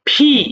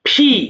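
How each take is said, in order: No difference in how they are said.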